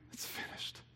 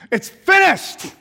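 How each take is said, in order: First: It is said in a faint whisper. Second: It is said as a loud shout.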